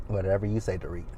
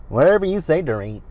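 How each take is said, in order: First: Low, soft sarcastic aside; muttered dismissal. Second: High-pitched mock agreement; sarcastic dismissal. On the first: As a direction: drop it to a quiet, doubting mutter. Same dismissal muttered as second take. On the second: Sarcastic dismissal, first take raised. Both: Real, not acted.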